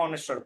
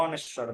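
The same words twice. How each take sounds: The two takes are said the same way.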